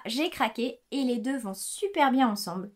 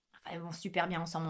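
First: Said in the usual way. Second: Quick quiet correction under the breath; soft fast aside. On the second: Real, not acted. Soft fast afterthought. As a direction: knitter correcting herself to viewers, softer and quick.

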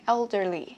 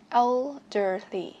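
First: Put-on "Elderly" at normal speed, EL stressed; stress on first syllable. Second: Put-on "Elderly" slowly, el, der, ly apart; teacher's slowed-down "Elderly", syllable by syllable; slow syllable breakdown. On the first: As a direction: hit the first syllable of "Elderly", falling after. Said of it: "đặt trọng âm một". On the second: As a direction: stretch each syllable of "Elderly". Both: Shown as a demonstration.

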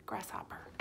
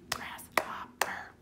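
First: Said in the usual way. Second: "grasshopper" very slow in three whispered beats; syllable by syllable. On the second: Shown as a demonstration. Teacher asks pupils to count syllables, whispered "grasshopper" broken up. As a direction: whisper "grasshopper" with gaps between grass, hop, per. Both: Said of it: "tell me how many syllables".

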